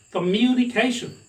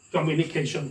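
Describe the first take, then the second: First: "communication" with a raised, stressed myoo vowel; British pronunciation. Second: "communication" said evenly, vowels not raised; demonstrated Indian-style "communication", unstressed and even; Indian pronunciation. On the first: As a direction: say "communication" as kuh-MYOO-ni-KAY-shun. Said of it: "British people talk it communication". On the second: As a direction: say "communication" as kom-yu-ni-ke-shun, no lift. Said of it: "Indians talk it". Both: Shown as a demonstration.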